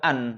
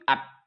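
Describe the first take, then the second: First: The n is held with a nasal hum. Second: The n loses its nasal hum, sounding like t. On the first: The speaker calls it right. "Kalau nggak dengung jadinya bukan an" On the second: The speaker calls it wrong. "at apta kalau nggak ada dengungnya"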